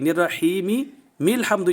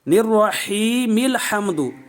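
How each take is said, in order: First: An extra M sound is added at the join. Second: A single M links smoothly into the next word. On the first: The speaker calls it wrong. "ये दो मीमें पैदा कर दी" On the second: The speaker calls it right. "मीम को आगे मिलाते हुए"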